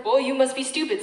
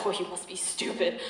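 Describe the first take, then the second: First: Quick dismissive retort; scornful put-down. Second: Lower, softer echo of the put-down; chastened self-reproach. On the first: Woman shooting down a suitor, scornful put-down. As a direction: dismiss him with sharp disbelief. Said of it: "I shot him a dirty look". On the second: Rejected suitor talking to himself, chastened and soft. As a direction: say it small, to yourself. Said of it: "he's looking at himself like". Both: Acted.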